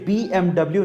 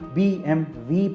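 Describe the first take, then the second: First: The last letter is said as double-u. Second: The last letter is said as vee. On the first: This is the English reading of the name. The speaker calls it wrong. "German language में इसे B M डब्ल्यू नहीं" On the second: This is the German reading of the name. The speaker calls it right. "बल्कि B M वी पढ़ा जाता है"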